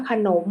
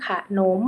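First: Said in the usual way. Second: ขะหนม split as ขะ-หนม; syllable-by-syllable reading. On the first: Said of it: "คำว่าขนม". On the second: Shown as a demonstration. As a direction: sound out ขะหนม in two syllables. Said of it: "อ่านว่าขะหนม".

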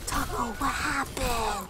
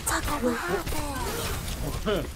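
First: Slow, drawn-out pet voice; fussing over a cat; talking to cat. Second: Higher, very slow pet talk; talking to cat. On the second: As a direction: coo at the cat slowly. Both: Retold or imitated. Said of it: "I talk to my cat like".

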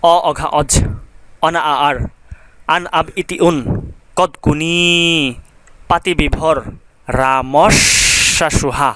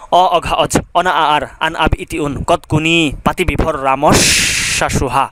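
First: Slow, rhythmic recital of the prefix list. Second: Quicker rhythmic run through the prefix list; faster recital. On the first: Teacher chanting the prefix list slowly for students. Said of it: "আমি প্রথমে আস্তে আস্তে বলবো". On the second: Teacher repeating the prefix list faster for students. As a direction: rattle the prefixes off a bit faster, keeping the rhythm. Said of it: "এবার একটু দ্রুত বলবো". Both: Shown as a demonstration.

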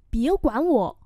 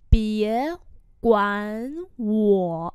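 First: Said in the usual way. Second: Separated, stretched syllables; slow, tone-by-tone repeat; slow model pronunciation. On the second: Shown as a demonstration. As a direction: pause between words for learners. Teacher repeats phrase slowly.

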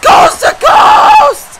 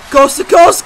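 First: Much higher, louder, stretched scream of coast to coast; all-out announcer scream, much higher and slow; screamed hype call. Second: Louder call of coast to coast; rising commentator shout; announcer shout. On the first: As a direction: draw out every coast like the crowd just erupted. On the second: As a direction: call it out as the move starts. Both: Acted. Calling a wrestling finisher.

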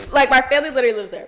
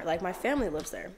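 First: Louder, quicker, with punch on "Like" and "literally"; emphatic restatement. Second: Said in the usual way. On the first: Real, not acted. Vlogger insisting her family is really in Florida, emphatic. Repeats the line more forcefully.

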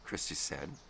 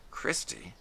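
First: Said in the usual way. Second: Gwen's startled call. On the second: A narrator's reading. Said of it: "Gwen startled".

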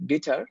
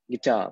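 First: "guitar" with the stress wrongly on "গি"; stress on first syllable. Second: "guitar" with the main stress on "টার"; stress on second syllable. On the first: Teacher showing students the mistaken stress, first syllable stressed in "guitar". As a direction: punch "গি" and let "টার" drop. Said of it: "হবে না, it's guitar". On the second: Teacher correcting the stress for students, second syllable stressed in "guitar". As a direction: keep "গি" light, lean on "টার". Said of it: "second সিলেবলের উপরে আমার primary". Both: Shown as a demonstration.

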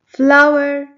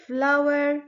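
First: Flower boomed out for the class to hear; loud model word. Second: Said in the usual way. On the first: Shown as a demonstration. Teacher to kids, calling the word out loud. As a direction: call out Flower loudly and clearly. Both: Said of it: "Let's clap our hands when you hear".

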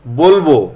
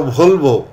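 First: Said in the usual way. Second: ভলবো with a breathy bh at the start; mispronounced aspiration. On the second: Shown as a demonstration. Teacher showing bolbo said wrongly, aspirated ভলবো. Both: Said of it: "এটা বলল".

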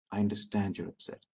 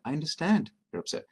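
First: Calm. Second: Steady, even reassurance; calm understanding voice; calm and sincere. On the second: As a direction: say it calmly, like you mean it. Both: Shown as a demonstration. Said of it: "notice how I'm saying it calmly".

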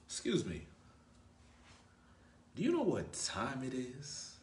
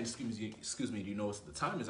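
First: Slow, drawn-out playful question with a rise; intriguing, slow ask. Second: Said in the usual way. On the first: Shown as a demonstration. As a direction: ask the time slowly, teasing, to make her curious. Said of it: "Why would I say it like that?". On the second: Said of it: "instead of just saying".

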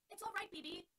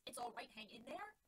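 First: Called out high and loud across the field; calling encouragement. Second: Slow, disbelieving echo with a rise at the end; mocking repeat. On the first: Acted. Dorothy calling out to Button Bright, loud and encouraging. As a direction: cheer up a struggling teammate from afar. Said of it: "Dorothy called to him". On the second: [name] mockingly echoing Dorothy's words to Button Bright, slow and incredulous.

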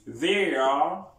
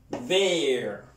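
First: They are rising on they; both words, lift They; full form they are. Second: They're as one short syllable; contracted they're. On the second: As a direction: clip They're quickly. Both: Shown as a demonstration. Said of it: "Repeat after me".

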